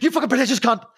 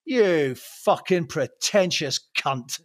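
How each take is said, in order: First: Higher, rushed mock insult; retold coked-up outburst. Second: Slow, drawn-out mock contempt; retold sudden insult. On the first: Storyteller corrects how he said it on cocaine, rushed mock outburst. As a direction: blurt it out in one quick burst. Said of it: "first time I did cocaine, I probably said". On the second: Storyteller re-enacts turning on a celebrity, slow retold contempt. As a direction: spell out the insult slowly, word by word. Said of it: "a switch flicked and I went".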